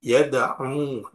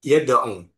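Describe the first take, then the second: First: "Yada'u" with a long, drawn-out final u. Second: "yada'u" with the final u cut short. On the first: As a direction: hold the last vowel of "Yada'u" as a long waw. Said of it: "dengan waw akhir". ("Yada'u" dengan u akhir dibaca panjang) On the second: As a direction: say "yada'u" louder, ending on a short u. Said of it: "Wawunya dibuang". ("yada'u" dengan u akhir dibaca pendek) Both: Shown as a demonstration.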